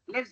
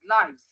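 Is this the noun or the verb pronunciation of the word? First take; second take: verb; noun. First: It is said with the verb pronunciation. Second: It is said with the noun pronunciation. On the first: The word names the action of living. "Lives when it is a verb" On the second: The word names the things people have. "This is a noun, so it is pronounced as lives"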